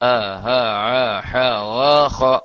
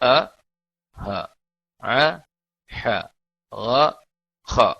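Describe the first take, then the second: First: The letters are said at a quicker pace. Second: The letters are said slowly and deliberately.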